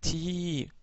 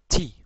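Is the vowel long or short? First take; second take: long; short. First: The vowel is said long. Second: The vowel is said short. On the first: "donc ti prolongé" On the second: "avec la kasra ça nous donne ti"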